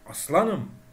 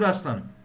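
First: The stress is on the second syllable. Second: The stress is on the first syllable. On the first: It means I am a lion. "istemsizce oradaki la'ya yükleniyorum" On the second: It is an exclamation addressing someone with swagger. "farkında olmadan ilk heceye vurgu yapıyorsunuz"

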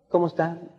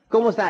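First: The greeting sounds flat and unenthusiastic. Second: The greeting sounds lively and enthusiastic. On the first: The speaker calls it wrong. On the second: The speaker calls it right.

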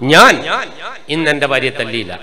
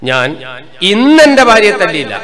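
First: The first word, ഞാൻ, is stressed. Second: The second word, ഇന്ന്, is stressed. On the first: Someone else beat her. "അർത്ഥം എന്നാ വേറെ ആളെടുത്ത് ശരിക്കും കിട്ടിയിരുന്നു" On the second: She was beaten on the previous days. "അർത്ഥം എന്നാ ഇന്നലെയും കൊടുത്തിന് മിഞ്ഞാന്നും കൊടുത്തിന്"

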